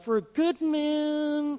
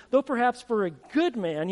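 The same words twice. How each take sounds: First: "good" stretched slowly and lifted high; drawn-out emphasis. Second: Said in the usual way. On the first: Shown as a demonstration. Preacher dwelling on the verse for the congregation, slow and higher.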